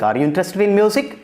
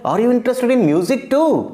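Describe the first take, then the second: First: It is asked in a neutral tone. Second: It is asked with surprise, stressing too.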